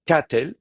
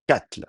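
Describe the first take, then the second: First: Katel with the stress kept on ka, the e light; stress on first syllable. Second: Katl with the stress on ka; stress on first syllable. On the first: Teacher shows katel stressed on the first a. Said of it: "c'est quand même le A qui a l'accent". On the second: Teacher models the stress on katl. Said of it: "l'accent va toujours rester sur la première syllabe". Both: Shown as a demonstration.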